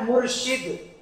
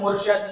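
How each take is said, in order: First: The last syllable has an 'i' vowel. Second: The last syllable has an 'a' vowel. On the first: The speaker calls it right. "सही लफ्ज क्या है?" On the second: The speaker calls it wrong. "ये मुर्शद का जो लफ्ज है ये रॉन्ग है।"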